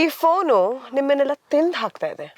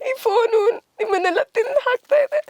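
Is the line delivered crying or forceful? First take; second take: forceful; crying. First: The line is spoken forcefully as a punchy line. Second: The line is spoken in a crying, weeping voice. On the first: "full punch dialogue ಅಂತ ಹೇಳೋದಾದ್ರೆ" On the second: "ಇವಾಗ ಅಳ್ತಾ ಹೇಳೋದಾದ್ರೆ"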